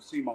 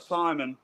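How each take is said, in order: First: The name sounds like see-more. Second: The name sounds like English Simon. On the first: This is how locals say the name. "down here we pronounce it Seymour" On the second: This is how outsiders say the name. "y'all might say it as uh, Simon"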